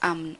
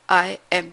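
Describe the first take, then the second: First: It is contracted into one short syllable. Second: It is said as two full separate words. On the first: The speaker calls it wrong. "आम बोल बोलेंगे तो गलत है" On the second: The speaker calls it right. "तो I am आपको पूरा बोलना है"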